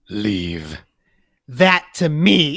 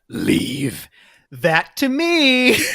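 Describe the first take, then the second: First: The whole line is in one natural voice. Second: Deep voice first, then a mimicked character voice.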